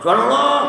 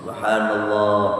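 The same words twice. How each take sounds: First: It is said loudly in an irritated, sharp tone. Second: It is said softly in a calm, devotional tone. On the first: The person is rebuking the imam out of irritation. The speaker calls it wrong. "Dia lagi gedek banget sama imamnya. ... Kenceng" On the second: The person is praising God as remembrance. The speaker calls it right. "Kalau orang berzikir tuh subhanallah"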